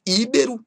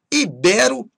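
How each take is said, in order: First: "íbero" stressed on initial Í; stress on first syllable. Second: "Ibero" stressed i-BE-ro. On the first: Teacher showing what not to say, "íbero" stressed on Í. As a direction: wrongly hit Í in "íbero". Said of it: "e não íbero". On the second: Teacher giving the correct form, "Ibero" stressed on BE. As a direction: hit BE in "Ibero". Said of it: "Ibero e não íbero". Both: Shown as a demonstration.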